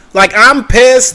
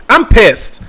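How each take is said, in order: First: Slow, drawn-out "I'm pissed" with weight on "I'm"; slower emphatic restatement of "I'm pissed"; emphatic slow repeat. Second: Said in the usual way. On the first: Real, not acted. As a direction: lean into "I'm pissed" slowly to drive it home.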